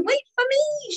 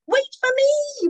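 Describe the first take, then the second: First: Very high shout, a little less loud; high, pleading call; desperate shout. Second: Very high, loud, slow shout; a small creature's high, desperate cry. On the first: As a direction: keep yelling after the train. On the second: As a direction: yell after the leaving train. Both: Acted. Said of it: "shouted Mincemeat".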